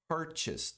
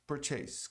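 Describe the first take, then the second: First: "Purchase" said PUR-chis; correct English purchase. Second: "Purchase" with a full "chase" ending, pur-CHEIS; learner's "Purchase" like "chase"; wrong purchase. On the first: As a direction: native "Purchase". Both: Shown as a demonstration. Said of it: "Muita gente pronuncia como purchase".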